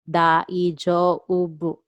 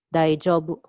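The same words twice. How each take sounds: First: "Daijoubu" very slow, each sound separated; "Daijoubu" slowly spelled out by ear; syllable-by-syllable model. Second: Said in the usual way. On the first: Shown as a demonstration. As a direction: stretch out "Daijoubu" for learners. Teacher breaks word into syllables.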